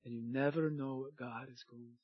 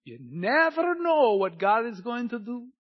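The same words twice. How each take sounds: First: Low, soft, reverent delivery; hushed awe. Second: Raised, loud, swelling proclamation; building wonder. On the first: Preacher telling church God may surprise them, hushed low awe. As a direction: drop it low and quiet, let it sink in. Repeats the line, now hushed. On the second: Preacher stirring church to expect God's work, raised wondering proclamation. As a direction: lift it high and loud, full of anticipation. Repeats the line in contrasting deliveries. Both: Real, not acted.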